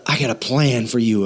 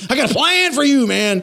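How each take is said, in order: First: Said in the usual way. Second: Mock shout. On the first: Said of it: "offense is telling". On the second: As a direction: bark the plan like a pushy bully. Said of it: "he's shouting at you".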